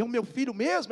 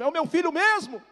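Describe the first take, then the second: First: High-pitched questioning, voice not yet at full volume; imitated tearful disbelief. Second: Very high, loud incredulous wail; imitated tearful cry. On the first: Mother on phone to lost son, emotional disbelief. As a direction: act a mother's first incredulous question. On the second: Mother on phone to lost son, louder tearful disbelief. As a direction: cry out the question at full pitch. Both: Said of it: "Ela em prantos começou a falar".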